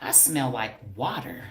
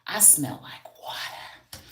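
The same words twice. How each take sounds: First: Said in the usual way. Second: Whispered aside. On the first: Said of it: "Strawberries stink sometimes". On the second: Shown as a demonstration. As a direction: say "I smell like water" as a secret whisper.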